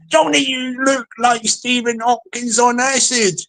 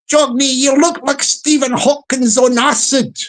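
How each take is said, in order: First: It is read in the speaker's plain voice. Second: It is said in a Kirkcaldy Fife accent.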